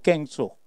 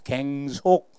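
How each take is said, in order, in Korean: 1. 첫 번째 음절은 된소리로 시작해요. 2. 두 번째 음절은 된소리로 시작해요. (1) "마음이 사악한 사람은 깽속이라고 그래요" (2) "뒤에 된소리가 나야 됩니다"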